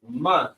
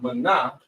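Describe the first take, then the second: First: The word ends on a consonant sound. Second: The word ends with an extra vowel sound. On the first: The speaker calls it right. "Man instead of mana" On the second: The speaker calls it wrong. "instead of mana"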